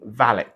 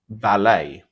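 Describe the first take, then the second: First: The final T is clearly pronounced. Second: The final T is silent. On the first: This is the anglicized British form. "valet with a hard T" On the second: This is the original French form. "valet with the silent T"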